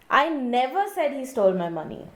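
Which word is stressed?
never. The stress is on the word never.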